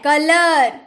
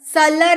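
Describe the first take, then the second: First: The word begins with a K sound. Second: The word begins with an S sound. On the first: The speaker calls it right. "सी के बाद ओ है" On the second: The speaker calls it wrong. "सलर नहीं"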